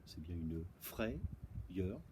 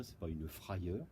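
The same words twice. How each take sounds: First: "frayeur" drawn out slowly as "frè-yeur", with an è sound; correct pronunciation. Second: "frayeur" said as "fra-yeur", with an open a; wrong pronunciation. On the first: Teacher slowly modelling the right "frayeur" as frè-yeur. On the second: Teacher contrasting the wrong "frayeur" for the class, said fra-yeur. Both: Shown as a demonstration.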